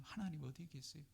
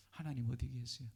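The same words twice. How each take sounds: First: Anguished plea. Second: Said in the usual way. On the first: Pretend. Prayer voiced as a lament.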